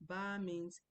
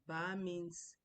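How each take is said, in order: No difference in how they are said.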